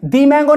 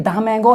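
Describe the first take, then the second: First: The word 'the' sounds like 'dee'. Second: The word 'the' sounds like 'duh'. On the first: The speaker calls it wrong. "दी mango नहीं। गलत बोल दिया।" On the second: The speaker calls it right. "ये दा mango है"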